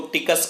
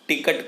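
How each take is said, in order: First: The word ends in an 's' sound. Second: The word ends in a 't' sound. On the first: This is a regional form. "टिकस कहता है" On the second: This is the standard form. "टिकट को"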